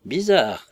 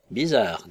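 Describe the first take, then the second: First: Higher, louder repeat of Bizarre; echoed, louder. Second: Said in the usual way. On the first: Acted. Hall echoes Humphrey, louder and higher. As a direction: echo Bizarre with more force. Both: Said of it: "répéta monsieur Hall".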